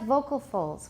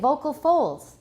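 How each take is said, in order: First: The stress falls on the word vocal. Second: The stress falls on the word folds. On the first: The speaker calls it right. "It's just like vocal folds" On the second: The speaker calls it wrong. "We don't say vocal folds"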